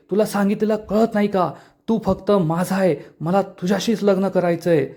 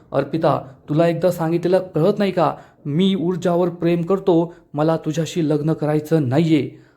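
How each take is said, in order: First: Higher-pitched insistence, no real shouting; mild narrated yell. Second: Understated annoyance, near narrating voice; mildly irritated. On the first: Arpita suddenly yells at the man rejecting her, mildly heated. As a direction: suggest her outburst through raised pitch. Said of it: "अचानक जोरात ओरडते". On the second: Shaurya refuses to marry Arpita, mildly irritated. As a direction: voice a restrained, firm rebuff. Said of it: "शौर्य चिडून म्हणतो". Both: A narrator's reading.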